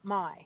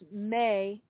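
First: The name is said with an 'eye' vowel. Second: The name is said with an 'ay' vowel. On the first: The speaker calls it wrong. "not my" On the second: The speaker calls it right. "M-E-I is pronounced May"

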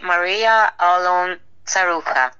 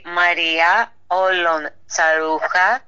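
First: The name is said with an American accent. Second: The name is said with a Greek accent. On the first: "in America, we say" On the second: "in Greek we say"

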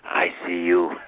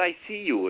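First: The words are said in a dark, menacing tone. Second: The words are said in a plain, harmless tone. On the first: He is warning the person that he is watching them. "that satanic voice" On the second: He is only stating that he can see the person. "It's like, he's not invisible"

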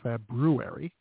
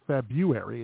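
First: The first r sound is pronounced. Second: The first r sound is dropped. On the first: The speaker calls it right. "it's February with the R" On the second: The speaker calls it wrong. "Not February"

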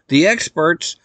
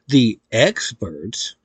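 First: The word is said quickly without emphasis. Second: The word is said slowly with ironic emphasis. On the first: The speaker calls it wrong. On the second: The speaker calls it right.

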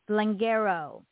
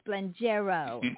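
First: The G is pronounced hard. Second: The G is pronounced soft. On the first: The speaker calls it wrong. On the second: The speaker calls it right.

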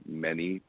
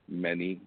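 No difference in how they are said.

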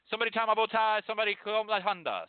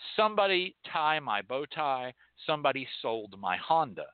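First: The phrase is spoken very quickly. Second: The phrase is spoken at an ordinary, slower pace.

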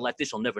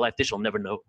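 First: It is recited fast. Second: It is recited slowly.

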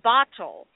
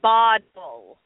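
First: The middle consonant is a clear T. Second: The middle consonant sounds like a D. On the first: The speaker calls it right. "it's actually pronounced bottle" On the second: The speaker calls it wrong. "do you hear the sound that I'm saying?"

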